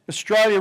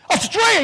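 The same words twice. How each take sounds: First: Said in the usual way. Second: Very high, loud shouted surprise; Australia? shouted up high in astonished joy; thrilled shout. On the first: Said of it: "I said". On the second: Retold or imitated. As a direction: burst out in delight. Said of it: "He's had a stroke almost".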